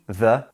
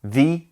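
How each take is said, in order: First: "the" said "thuh"; "thuh" version. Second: "The" said "thee"; "thee" version. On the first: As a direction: say "the" with a schwa, as "thuh". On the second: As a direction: say "The" with a long ee vowel. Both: Shown as a demonstration. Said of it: "The two versions of the and the".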